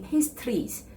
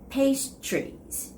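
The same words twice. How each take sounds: First: The TR is said as a clear T and R. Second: The TR is said like a CH sound. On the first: The speaker calls it wrong. "they try to make clear T and the R sound" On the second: The speaker calls it right. "It's more like the ch"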